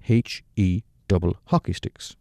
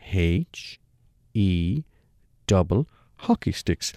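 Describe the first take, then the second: First: Said in the usual way. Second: H, E and double hockey sticks spelled out with a pause after each; laboured spelling. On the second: Retold or imitated. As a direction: spell it out slowly so a fool could follow. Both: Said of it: "this time a bit more laboured".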